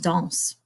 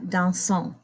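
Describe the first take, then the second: First: The written ending is silent, one syllable only. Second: The written ending is pronounced as an extra syllable. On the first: The speaker calls it right. "but it's just danse" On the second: The speaker calls it wrong. "That's how our English brain wants to say it"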